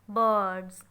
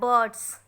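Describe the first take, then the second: First: The word ends with a buzzing z sound. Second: The word ends with a hissing s sound. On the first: The speaker calls it right. "you have to pronounce z" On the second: The speaker calls it wrong.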